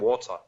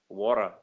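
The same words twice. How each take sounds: First: It is said in a non-American accent. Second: It is said in an American accent. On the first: This is how it is said abroad. "mas lá é" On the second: This is how it is said at home. "aqui puxa mais pro, pro, pro americano"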